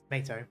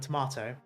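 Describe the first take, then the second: First: It is said with an American harsh middle vowel. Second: It is said with a British rounded middle vowel. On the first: "Americans do it with a harsh A, so it's tomato" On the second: "other Commonwealth will say um tomato. We we give it a rounded A"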